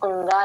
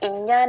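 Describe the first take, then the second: First: The letter is named with an 'ung-a' sound. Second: The letter is named with an 'in-ya' sound. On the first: The speaker calls it right. "ఉంగా అని పలకాలి" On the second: The speaker calls it wrong. "మనం ఇన్యా నేర్చుకున్నాం, అది ఇన్యా కాదండి"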